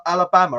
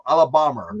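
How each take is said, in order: First: Said in the usual way. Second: Put-on Englishman's clumsy American accent, a bit louder; mock an American saying Alabama as "Ala-BAH-ma"; bad American accent. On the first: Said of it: "trying to do an American accent badly". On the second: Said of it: "an Englishman trying to do an American accent badly".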